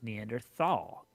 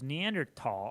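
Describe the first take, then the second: First: The last syllable starts with a th sound. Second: The last syllable starts with a plain t sound. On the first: This follows the familiar English pronunciation. "I've always heard it as" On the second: This follows the French and German pronunciation. "there's no H sound when it's pronounced in French and German"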